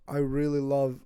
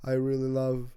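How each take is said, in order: Both takes have the same delivery.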